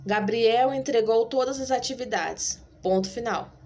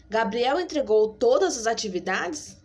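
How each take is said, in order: First: Falling statement tune; statement read. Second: "atividades?" rising at the end as a question; question tune. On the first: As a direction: read it as a flat statement with a final fall. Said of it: "vai ser a minha entonação de voz". (entonação afirmativa, final descendente) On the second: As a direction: ask it, lift the end. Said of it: "por que que eu falei desse jeito". (entonação de pergunta, subindo no final) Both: Shown as a demonstration.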